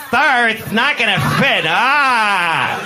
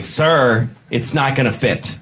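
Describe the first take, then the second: First: High, lisped, hammed-up camp voice; exaggerated camp steward. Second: Lightly camp flight attendant; slightly camp steward. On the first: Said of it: "He wasn't like". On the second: Acted. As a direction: say it with just a hint of camp. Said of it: "he was only slightly gay, like that".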